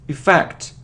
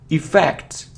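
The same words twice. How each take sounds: No difference in how they are said.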